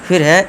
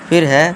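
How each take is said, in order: Both takes have the same delivery.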